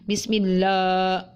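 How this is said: The lam sounds too thick and heavy. "la lahjahnya tidak terlalu tebal"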